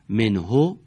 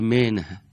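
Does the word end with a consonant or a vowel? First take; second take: vowel; consonant. First: The word ends with a short vowel. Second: The word ends on a bare consonant. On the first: "حرف آخر اونها دارای یکی از حرکات" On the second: "در هنگام وقف اون حرکت به سکون تبدیل میشه"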